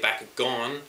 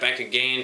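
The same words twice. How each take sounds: First: The name is said with an O vowel. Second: The name is said without an O vowel. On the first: The speaker calls it right. "I say Bakugan, which actually has O" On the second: The speaker calls it wrong. "some people say Bakugan, which uh, Bakugan to me this sounds wrong"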